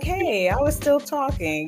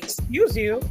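First: It is said in a friendly, light tone. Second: It is said in a rude, snippy tone.

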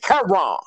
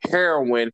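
First: It is said the way older Black folks say it. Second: It is said the usual, standard way.

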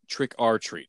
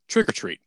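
First: The phrase is said at an unhurried pace. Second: The phrase is said quickly, run together.

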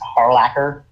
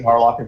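First: The middle consonant is a ch sound. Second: The middle consonant is a k sound. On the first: The speaker calls it right. "I've never pronounced Harlacher" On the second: The speaker calls it wrong. "I've always pronounced it Harlocker for some reason"

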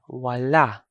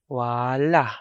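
First: The first vowel is long; the ending is open. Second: The same.

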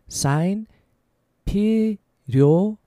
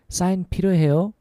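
First: It is said slowly. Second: It is said fast.

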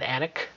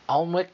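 First: It is said with an English pronunciation. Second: It is said with a non-English pronunciation.

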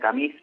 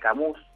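First: It is said the French way. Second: It is read as spelled, Spanish style. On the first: The speaker calls it right. "se pronuncia Camus porque es francés" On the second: The speaker calls it wrong. "se escribe Camus"

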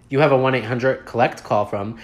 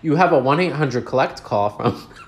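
First: The line is said with a straight face. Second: The line is said while breaking into laughter. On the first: The speaker calls it right. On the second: The speaker calls it wrong.

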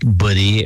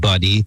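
First: It is said with a Filipino-English pronunciation. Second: It is said with a standard English pronunciation. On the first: The speaker calls it wrong. "mispronouncing a word like buddy" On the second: The speaker calls it right. "when you really mean buddy"

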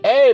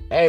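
First: It is said in an angry voice. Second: It is said in a calm, friendly voice. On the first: The listener feels attacked. The speaker calls it wrong. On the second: The request comes across as kind. The speaker calls it right.

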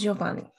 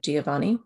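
First: The name is said with three syllables. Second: The name is said with four syllables. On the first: "The Italian pronunciation is Giovanni, so only three" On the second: "the English pronunciation of Giovanni, which has four syllables"

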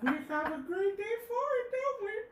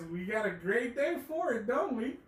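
First: It is said in Herbert's put-on voice. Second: It is said in his normal voice.

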